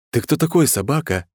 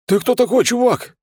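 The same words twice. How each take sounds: First: Mock-tender question, starting high; affectionate inquiry. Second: High, loud voice of a stunned thug; amazed thug. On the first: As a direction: ask it sweetly. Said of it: "ласково поинтересовался я". (ласково, с вопросом) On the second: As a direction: blurt it out in high-pitched amazement. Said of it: "изумлённо посмотрела на меня бандитская морда". (изумлённый бандит, высоким голосом) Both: A narrator's reading.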